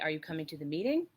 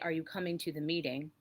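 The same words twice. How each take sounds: First: The pitch rises at the end of the sentence. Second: The pitch falls at the end of the sentence. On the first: It is a real question. "most questions have the ending intonation that goes that goes up" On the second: It assumes the person is coming. "that's more of a statement"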